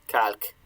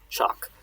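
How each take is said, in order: First: It begins with a hard k sound. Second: It begins with a ch sound.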